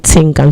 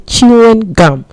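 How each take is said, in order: First: It begins with a t sound, syllables merged. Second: It begins with a ch sound, fully said. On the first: The speaker calls it wrong. "don't say tingum" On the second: The speaker calls it right. "say chewing gum"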